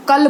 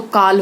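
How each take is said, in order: First: कल with a brief inherent A; short vowel. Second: काल with a long open AA; long vowel. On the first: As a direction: say कल short, like 'kul'. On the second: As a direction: say काल drawn out, 'kaal'. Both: Shown as a demonstration. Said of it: "मात्रा गलत लगा देते हैं".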